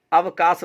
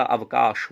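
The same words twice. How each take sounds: First: अवकाश ending in a plain 's', avkaas; wrong pronunciation. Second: अवकाश ending in 'sh', avkaash; correct pronunciation. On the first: Teacher showing a common error, अवकाश as avkaas. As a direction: say अवकाश with 's' for 'sh', pitched up. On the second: Teacher correcting the error, अवकाश as avkaash. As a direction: say अवकाश slowly, lower, with a clear 'sh'. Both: Shown as a demonstration. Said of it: "अवकाश होता है".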